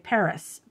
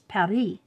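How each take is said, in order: First: It is said with an English pronunciation. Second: It is said with a French pronunciation. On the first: "English people, we always say Paris" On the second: "but it's Paris"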